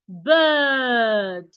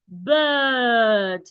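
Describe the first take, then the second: No difference in how they are said.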